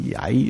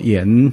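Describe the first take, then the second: First: The syllable is said as ya. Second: The syllable is said as yan. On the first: The speaker calls it right. "他读作崖" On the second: The speaker calls it wrong. "也不读作炎"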